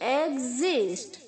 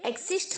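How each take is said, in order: First: The x is said as 'gz'. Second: The x is said as 'ks'. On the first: The speaker calls it right. "ई के आगे जो एक्स है उसे आप जी की तरह प्रोनाउंस करेंगे" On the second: The speaker calls it wrong. "एक्सिस्ट नहीं बोलना है"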